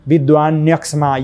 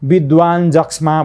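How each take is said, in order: First: The second word begins with a ny sound. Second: The second word begins with a j sound. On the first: The speaker calls it right. "यो नै उच्चारण" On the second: The speaker calls it wrong. "विद्वान जक्ष्मा भएन"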